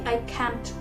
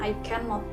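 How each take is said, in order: First: The negative is contracted with a faint t. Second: The negative is said as full cannot. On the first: The speaker calls it right. "tapi I can't. Itu lebih kayak T-nya itu disamarkan" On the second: The speaker calls it wrong. "bukan I cannot gitu ya"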